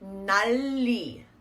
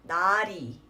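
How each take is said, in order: First: The l sound is pronounced in both syllables. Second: The l sound is pronounced only in the second syllable. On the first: The speaker calls it wrong. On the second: The speaker calls it right.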